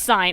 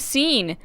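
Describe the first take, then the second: First: The vowel sounds like 'eye', as in 'sign'. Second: The vowel sounds like 'ee', as in 'scene'. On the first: The speaker calls it right. "Not Scene, it's Sign" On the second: The speaker calls it wrong. "I've always pronounced it Scene"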